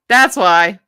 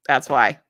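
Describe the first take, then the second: First: Emphatic realisation. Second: Said in the usual way. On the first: Real, not acted. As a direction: punch it up as a discovery. Repeats remark with emphasis.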